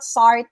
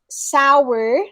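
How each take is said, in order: First: The word is said with one syllable. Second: The word is said with two syllables. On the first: The speaker calls it wrong. "it's not" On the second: The speaker calls it right. "two syllables, not one"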